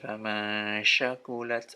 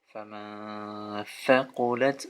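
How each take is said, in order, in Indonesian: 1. Kata kedua diawali dengan bunyi sh. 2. Kata kedua diawali dengan bunyi th. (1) "Jangan keliru membaca ini seperti famasya" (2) "Yang betul adalah kalau penulisan Latinnya itu t dan s"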